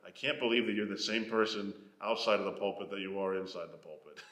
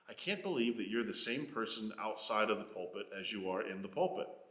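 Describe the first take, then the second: First: It sounds disapproving, like a complaint. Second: It sounds admiring, like a compliment.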